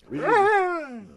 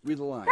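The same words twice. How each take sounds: First: Higher, louder insistent prompt. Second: Said in the usual way. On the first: Shown as a demonstration. Author urging his dog to read her lines, louder.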